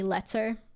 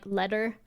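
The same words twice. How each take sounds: First: Every sound in the word is crisply enunciated. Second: The word is said loosely, with relaxed consonants. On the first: "I pronounce like every letter of the word" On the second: "Instead of saying like"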